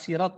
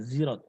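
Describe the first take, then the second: First: The word begins with an s sound. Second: The word begins with a z sound. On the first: This is the common reading. "Kata sirat misalnya" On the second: Some readers say it this way. "sebagian juga membaca zirat"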